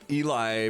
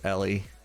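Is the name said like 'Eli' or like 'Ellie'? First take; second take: Eli; Ellie. First: The name sounds like the football player's name. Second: The name sounds like the name Ellie. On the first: People copy a famous player's name. The speaker calls it wrong. "call him Eli more often because there was a famous football player" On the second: This is the name's real pronunciation. The speaker calls it right. "I'm pretty sure I got it figured out that it's Ellie"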